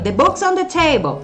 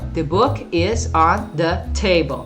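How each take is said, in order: First: The sentence is shouted loudly. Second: The sentence is spoken very slowly. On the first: "fala isso aqui gritando"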